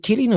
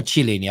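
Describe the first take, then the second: First: "Chiellini" with a K at the front; hard K pronunciation. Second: "Chiellini" with a "ch" at the front; soft CH pronunciation. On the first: Host unsure of a player's name, "Chiellini" with a hard K. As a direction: offer "Chiellini" as kee-LEE-nee, hard K. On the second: Host weighing the other option, "Chiellini" with a CH start. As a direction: offer "Chiellini" as chil-LEE-nee, CH as in chill. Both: Shown as a demonstration. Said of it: "I hear people say it differently".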